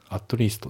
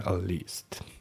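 First: The t at the end of at is pronounced. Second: The t at the end of at is dropped. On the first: The speaker calls it wrong. "ってなくて" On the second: The speaker calls it right. "at のT が抜けますね"

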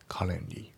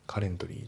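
First: The T sound in the middle is dropped. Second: The T sound in the middle is pronounced. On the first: The speaker calls it right. "カレントリーのT が抜けますね" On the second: The speaker calls it wrong. "カレントリーじゃなくて"

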